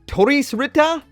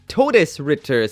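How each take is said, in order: First: The name is said with Japanese-style sounds. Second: The name is said as its German spelling reads. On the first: This is how the name is said in Japanese. "In Japanese it is" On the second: This is how the name reads from its spelling. "it looks like it says"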